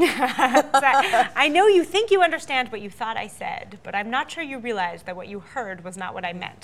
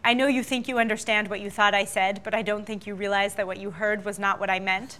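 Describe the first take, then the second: First: It is said slowly. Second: It is said at a normal speed.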